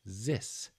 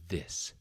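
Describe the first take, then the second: First: The word begins with a z sound. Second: The word begins with a th sound. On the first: The speaker calls it wrong. "the other common one I hear is a Z sound" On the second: The speaker calls it right. "so the correct sound again is this"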